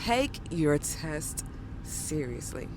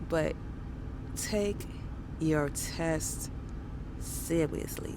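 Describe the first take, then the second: First: It is said in a normal adult voice. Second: It is said in a childlike baby voice. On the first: It sounds serious. The speaker calls it right. "So I'm gonna do this again" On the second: It does not sound serious. The speaker calls it wrong. "I did my little baby voice"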